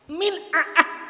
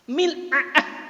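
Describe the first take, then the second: First: The middle consonant is a glottal catch. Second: The middle consonant is a glottal catch.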